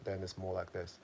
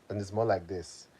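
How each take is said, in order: First: It is spoken in a British accent. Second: It is spoken in a Nigerian accent. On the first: "Versus if I'm speaking my British accent" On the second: "If I'm speaking in my Nigerian accent"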